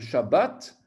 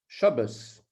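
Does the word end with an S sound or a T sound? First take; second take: T sound; S sound. First: The word ends with a T sound. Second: The word ends with an S sound.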